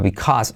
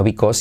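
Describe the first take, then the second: First: BECAUSE with an open A, "bee-kahz"; corrected pronunciation. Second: BECAUSE with a round O, "bee-kos"; wrong pronunciation. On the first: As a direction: open up the second vowel of "because". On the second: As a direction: say "because" as a learner's "bikos". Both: Shown as a demonstration. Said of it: "no because, sino because".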